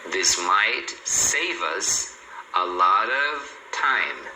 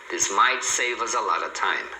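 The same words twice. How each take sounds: First: Very slow, word groups stretched out; teacher's slow-motion pronunciation model; slow linking demo. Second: A LOT OF said as "a lotta"; connected sentence, "save us" linked, "lot of" reduced; reduced form. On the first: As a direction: draw out "save us" and "a lot of" as joined chunks. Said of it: "Então, aqui, ó". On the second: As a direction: lower voice, "a lot of" shrunk to "a lotta". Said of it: "é muito comum eles falarem". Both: Shown as a demonstration.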